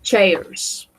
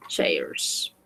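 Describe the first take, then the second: First: Chairs said clearly, falling tune; teacher modelling the plural chairs; model pronunciation. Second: Chairs whispered very softly; teacher whispering the plural chairs; whispered repeat. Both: Shown as a demonstration. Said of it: "we say".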